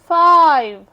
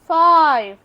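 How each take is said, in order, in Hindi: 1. स्वर एक लंबी 'eye' ध्वनि है। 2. स्वर एक लंबी 'eye' ध्वनि है।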